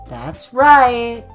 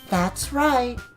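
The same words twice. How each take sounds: First: It is said in his normal voice. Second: It is said in a more feminine voice.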